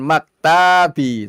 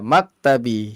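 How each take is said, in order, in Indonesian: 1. Ada vokal dalam kata ini yang dibaca panjang. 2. Semua vokal dalam kata ini dibaca pendek. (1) "Bukan maktabi, nggak ada yang panjang" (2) "Iya, maktabi"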